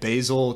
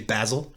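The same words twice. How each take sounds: First: Basil is said with an American accent. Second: Basil is said with a British accent.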